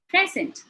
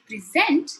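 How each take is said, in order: First: The stress is on the first syllable. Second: The stress is on the second syllable. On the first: It is a gift. "When I say present, it means a gift" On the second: It means delivering information. "it is something that I'm delivering"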